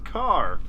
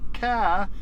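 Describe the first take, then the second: First: The final R sound is pronounced. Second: The final R sound is dropped. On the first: The speaker calls it right. "it's car" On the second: The speaker calls it wrong. "it's not ca"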